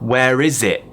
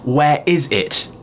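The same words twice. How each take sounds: First: The T in 'it' is dropped. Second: The T in 'it' is clearly pronounced. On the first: "I could say" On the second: "Instead of saying"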